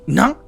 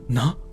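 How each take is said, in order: First: It is said in a harsher voice. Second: It is said in a gentler voice.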